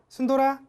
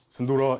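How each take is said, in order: First: The name is called in a high, bright voice. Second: The name is called in a low, deep voice. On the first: The dog hears it as friendly. The speaker calls it right. "목소리도 좀 밝게 ... 조금 여자 같은 목소리로" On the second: The dog hears it as aggressive. The speaker calls it wrong. "이렇게 하면 안 돼요. 강아지들은 이런 낮은 음은 공격적인 소리예요"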